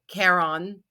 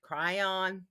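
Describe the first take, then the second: First: It is said in another accent's different pronunciation. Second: It is said in the speaker's own usual pronunciation. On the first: "some people pronounce that because they have a different accent than I do" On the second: "when I say cryon"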